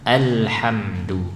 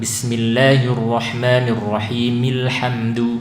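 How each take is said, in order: First: Alhamdu starts fresh with its opening vowel pronounced. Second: Alhamdu is linked on without its opening glottal vowel. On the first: The reader has stopped after the opening verse. "putus basmalahnya kita waqaf di ar-rahim, maka di sini kita baca alhamdu" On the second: The opening verse runs straight into the next one. "bisa kita sambung"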